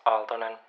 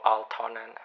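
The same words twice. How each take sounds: First: The t is said softly without a puff. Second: The t is said with a puff of air. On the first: The speaker calls it right. "We say it softer" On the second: The speaker calls it wrong. "It's not T"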